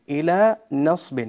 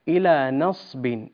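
The two takes are said the same way.

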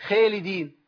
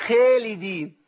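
The two takes are said the same way.

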